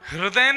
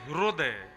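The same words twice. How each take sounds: First: The first syllable has the standard ri vowel. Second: The first syllable has a ru-like vowel. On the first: The speaker calls it right. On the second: The speaker calls it wrong.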